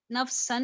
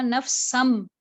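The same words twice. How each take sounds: First: नफ्सन quick, with a clear n; plain n ending. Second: नफ्सम closing on a firm m; n turned to m. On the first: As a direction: end नफ्सन on the tongue, not the lips. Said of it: "नफ्सन नहीं पढ़ा". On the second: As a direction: lean on the final m of नफ्सम. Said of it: "मैंने क्या पढ़ा?". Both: Shown as a demonstration.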